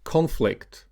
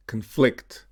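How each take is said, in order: First: CONflict, high on the first syllable; stress on first syllable. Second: ConFLICT, stressed on the second syllable. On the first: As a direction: say Conflict as a noun, CON-flict. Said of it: "stressed on the first syllable". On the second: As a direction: say conflict as a verb, con-FLICT. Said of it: "stressed on the second syllable". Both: Shown as a demonstration.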